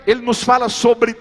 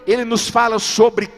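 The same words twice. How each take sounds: The two takes are said the same way.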